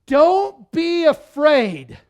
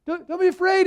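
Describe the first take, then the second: First: Loud, high, slow declaration; Jesus proclaiming. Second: High, chummy reassurance; mock casual Jesus. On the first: Retold or imitated. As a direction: draw it out as a ringing command. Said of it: "Jesus says". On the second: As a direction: play it as an over-friendly pal calming people down. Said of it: "this is not just Jesus going".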